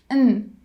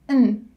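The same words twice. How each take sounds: Both takes have the same delivery.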